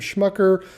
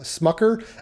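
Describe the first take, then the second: First: The name begins with a 'sh' sound. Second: The name begins with an 's' sound.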